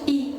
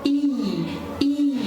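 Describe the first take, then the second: First: The vowel is cut short. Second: The vowel is drawn out long. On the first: The speaker calls it wrong. "ما نقولش اي" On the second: The speaker calls it right. "long vowel sound، ليتر طويل كده"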